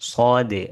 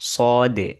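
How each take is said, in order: Both takes have the same delivery.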